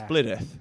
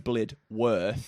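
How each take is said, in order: First: The name gets a shortened local pronunciation. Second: The name gets a full, careful pronunciation. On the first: This is how locals actually say it. "but it's Blidworth" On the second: This is how an outsider would say it. "it is spelt Blidworth. So it would make sense to say Blidworth"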